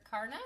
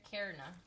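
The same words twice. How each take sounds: First: "Karna" with an AH, like "car"; first pronunciation. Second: "Karna" with an EH, like "care"; alternative pronunciation. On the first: Mom trying out a viewer's name, "Karna" as KAR-nuh. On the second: Mom second-guessing a viewer's name, "Karna" as KAIR-nuh. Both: Shown as a demonstration. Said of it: "I'm not sure if it's Karna or Karna".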